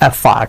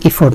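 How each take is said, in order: First: The second vowel sounds like an unrounded 'a'. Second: The second vowel sounds like a rounded 'o'. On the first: The speaker calls it right. "এখানে উচ্চারণটা খেয়াল করবেন।" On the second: The speaker calls it wrong. "এফোর্ট না"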